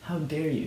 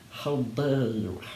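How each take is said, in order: First: It is read plainly without a character voice. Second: It is said in Snape's angry character voice.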